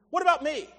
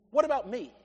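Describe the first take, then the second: First: What about me? pressed a bit harder; more insistent. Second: Said in the usual way. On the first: Shown as a demonstration. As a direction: push the second What about me?. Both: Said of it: "distracted by self".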